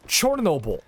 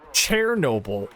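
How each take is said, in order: First: The first syllable sounds like 'chor'. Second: The first syllable sounds like 'cher'. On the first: This is the name in the native language. The speaker calls it right. "It's Chornobyl. That's that's the place's name in its native tongue" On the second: This is the Russian-derived name. The speaker calls it wrong. "he says it like he's correcting somebody"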